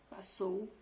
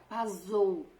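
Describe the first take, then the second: First: The middle consonant is an s sound. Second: The middle consonant is a z sound. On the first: "passou com dois S's" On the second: "se um for um só, vai ter som de Z, vai ficar passou"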